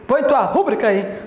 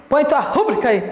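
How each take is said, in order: No difference in how they are said.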